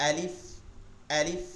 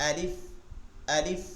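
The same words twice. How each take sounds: Both takes have the same delivery.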